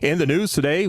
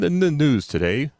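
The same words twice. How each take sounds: First: The level control adapts quickly and aggressively. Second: The level control adapts slowly and gently. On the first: It sounds like a punchy radio announcer. "an aggressive kind of level control in your voice" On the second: It sounds like calm public radio news. "you want this to run really slow"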